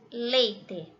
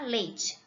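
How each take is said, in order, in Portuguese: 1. Não é pronunciado com sotaque carioca. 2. É pronunciado com sotaque carioca.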